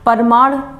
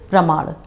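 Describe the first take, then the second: First: A vowel separates the p and r sounds. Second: The p and r form one cluster. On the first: The speaker calls it wrong. "बहुत से लोग कहते हैं परमाण" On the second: The speaker calls it right. "सही सही शब्द प्रमाण"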